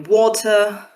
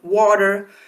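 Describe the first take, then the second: First: It is said in a British RP accent. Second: It is said in an American accent. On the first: "received pronunciation speaker, it will be water" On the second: "So for an American, it will denote water"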